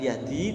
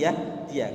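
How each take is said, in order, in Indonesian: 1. Kata itu berakhir dengan bunyi 'i' saja. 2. Kata itu berakhir dengan bunyi 'a' tambahan. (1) "bukan yahdi" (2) "tapi ya dia"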